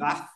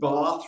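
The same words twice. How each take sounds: First: It is said with a northern English vowel. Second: It is said with a southern English vowel. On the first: This is the speaker's own native way of speaking. "rather than Bath" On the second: The speaker adapts to a listener from the south. "when I'm talking to someone from the south, I might say Bath"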